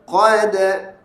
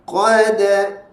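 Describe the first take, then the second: The two takes are said the same way.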